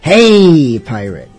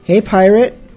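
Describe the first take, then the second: First: The word hey is stretched out long. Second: The word hey is said short.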